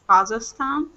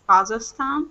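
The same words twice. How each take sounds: First: It is pronounced the way people from Kazakhstan say it. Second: It is pronounced the way people from Kazakhstan say it.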